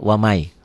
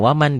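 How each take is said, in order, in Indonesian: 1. Bunyi n menyatu dengan bunyi y. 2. Bunyi n diucapkan dengan jelas. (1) "dia wamai" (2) "nggak mungkin baca waman"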